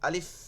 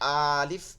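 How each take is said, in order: First: The first vowel is short and quick. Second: The first vowel is drawn out long. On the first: The speaker calls it right. "দ্রুত।" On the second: The speaker calls it wrong. "এই যে আলিফ এরকম না"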